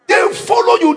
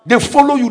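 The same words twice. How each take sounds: First: Shouted up high; preaching shout. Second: Said in the usual way. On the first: Acted. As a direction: hammer the line to the congregation.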